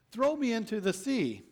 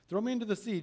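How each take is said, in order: First: Higher, with "Throw" pushed hard; urgent Jonah plea. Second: Said in the usual way. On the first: Acted. Jonah pleading with the sailors, higher, stressing "Throw". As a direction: Jonah begs them to throw him in.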